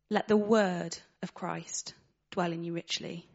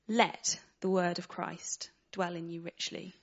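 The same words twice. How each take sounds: First: A word other than let carries the stress. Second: The word let carries the main stress. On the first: "putting the emphasis on a different word each time" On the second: "that emphasis on the word let?"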